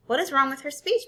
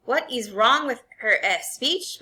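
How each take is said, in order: First: Puzzled rising question; a hint of a puzzled mother. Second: Slow mocking echo of her words; father mimicking the mother. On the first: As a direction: ask it in genuine surprise. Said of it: "my mother questioned him". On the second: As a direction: throw her question back at her. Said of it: "My father wagged his, his head at her". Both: A narrator's reading.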